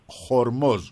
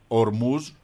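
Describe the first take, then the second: First: The word begins with an h sound. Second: The word begins directly with a vowel. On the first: The speaker calls it right. "αλλά Χορμός" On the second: The speaker calls it wrong. "λέει ότι το όνομα δεν είναι Ορμούς"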